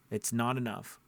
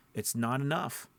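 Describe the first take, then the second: No difference in how they are said.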